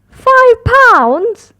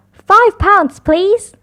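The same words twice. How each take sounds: First: High, loud indignant "Five pounds?"; snorting in disbelief. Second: Said in the usual way. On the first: A narrator's reading. Daddy Pig shocked by the price, high snorting disbelief. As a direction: scoff at the price. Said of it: "snorts Daddy Pig".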